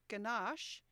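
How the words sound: It is said with an American pronunciation. "which the US pronounced ganache"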